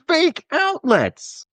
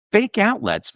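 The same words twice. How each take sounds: First: Outraged. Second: Said in the usual way. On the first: Acted.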